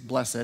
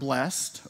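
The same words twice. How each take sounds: First: The word is pronounced the fancy, formal way. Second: The word is pronounced the plain, everyday way.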